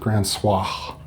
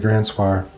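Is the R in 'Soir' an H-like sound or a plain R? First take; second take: H-like; plain R. First: The R sounds like a breathy H. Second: The R sounds like a plain R. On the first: This is the proper French way to say it. "you would say it with an H" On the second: This is the speaker's own casual way to say it. "I'm going to say Grand Soir"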